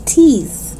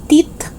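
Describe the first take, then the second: First: Tongue out to close "teeth"; TH sound. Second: "teeth" as short "tit"; short vowel, hard T closing "teeth". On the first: Teacher correcting learners, "teeth" with clear TH. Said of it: "but it's teeth". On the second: Teacher showing learners the mistake, "teeth" with final T. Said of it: "It's not teeth". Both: Shown as a demonstration.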